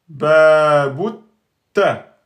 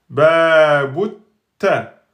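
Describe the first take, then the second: First: The t sound is doubled and held. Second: The t sound is doubled and held.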